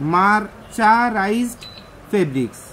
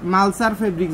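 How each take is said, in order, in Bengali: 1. প্রথম শব্দটা পুরোপুরি 'mercerized' হিসেবে বলা হয়েছে। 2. প্রথম শব্দটা বিকৃত হয়ে 'malsar' হয়ে গেছে।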